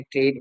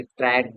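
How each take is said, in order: First: ट्रेड with a closed "ay" vowel; ट्रेड said as "trayd"; British pronunciation. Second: ट्रैड with an open "a" vowel; ट्रैड said as "trad"; US pronunciation. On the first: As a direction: make ट्रेड rhyme with "made". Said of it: "pronunciation Britain में ट्रेड बोलते हैं". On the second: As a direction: make ट्रैड rhyme with "had". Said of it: "US side में ट्रैड बोलते हैं". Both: Shown as a demonstration.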